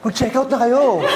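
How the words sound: The voice sounds shocked and startled. "yung na-shook. Nabigla"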